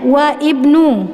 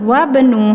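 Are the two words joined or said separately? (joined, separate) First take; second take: separate; joined. First: The vowel of ibnu is sounded separately after wa. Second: Wa runs straight into bnu with no vowel. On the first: The speaker calls it wrong. "tidak dibaca wa ibnu" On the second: The speaker calls it right. "karena di tengah langsung wabnu"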